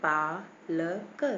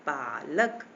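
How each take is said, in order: First: पालक broken slowly into paa, la, ka; long open vowel. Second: पालक as one word, lower, with a long "paa"; long open vowel, blended. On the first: Teacher demonstrating the aa matra, slow syllable by syllable. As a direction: sound out पालक with a held "paa". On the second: Teacher blending the syllables for children, long first vowel. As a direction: join up पालक after sounding it out. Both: Shown as a demonstration. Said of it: "पूरा मुंह खुल गया ना".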